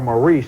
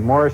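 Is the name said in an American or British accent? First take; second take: American; British. First: The name is said the American way. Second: The name is said the English way. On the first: "as we would say it in America" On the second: "they say Morris in England"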